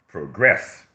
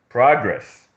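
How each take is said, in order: First: The stress is on the second syllable. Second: The stress is on the first syllable. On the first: It is used as a verb. "is a verb" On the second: It is used as a noun. "is a noun"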